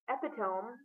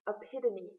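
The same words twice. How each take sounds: First: The ending rhymes with dome. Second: The ending does not rhyme with dome. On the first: The speaker calls it wrong. "Instead of the cousin of where the um, saints play" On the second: The speaker calls it right. "it is epitome"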